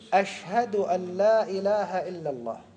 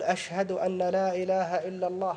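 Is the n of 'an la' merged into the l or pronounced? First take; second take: merged; pronounced. First: The n sound fully merges into the following l. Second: The n sound before la is clearly pronounced. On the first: The speaker calls it right. "أدغم ... إدغام كامل" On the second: The speaker calls it wrong. "هذا خطأ عند العرب"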